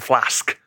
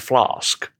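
First: It is said in a northern English accent. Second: It is said in a southern English accent. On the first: "you started saying some northern pronunciations" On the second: "if you were doing British Southern standard, you'd say flask"

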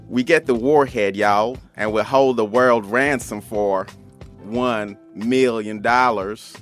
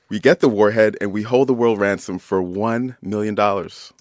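First: It is said in a cowboy voice. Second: It is said in a normal voice.

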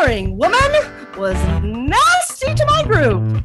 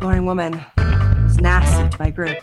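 First: It is said like a showy stage magician. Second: It is said in a secretive spy manner.

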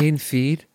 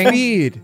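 First: The voice rises at the end like a question. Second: The voice falls at the end like an exclamation.

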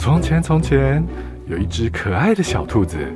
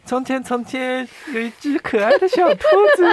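First: It is said in an ordinary voice. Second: It is said in a cute voice.

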